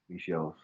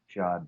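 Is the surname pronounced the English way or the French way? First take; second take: French; English. First: The surname is said with a French pronunciation. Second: The surname is said with an English-style pronunciation. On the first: This is how French speakers say it. "when in French speaking, it's Michaud" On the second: This is how the family has always said it. "we've always said Machad"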